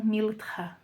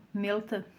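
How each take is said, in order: First: "miltha" with an I in place of the E; English transliteration. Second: "melta" with a closed E, almost an I. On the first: Preacher showing the English transliteration, slow "miltha" with an I. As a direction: say "miltha" slowly, I in the first syllable. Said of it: "para a língua inglesa usam". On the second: Teacher showing the oriental pronunciation, closed E in "melta". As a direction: say "melta" with its E narrowed toward I. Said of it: "se pronuncia com um E fechado". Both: Shown as a demonstration.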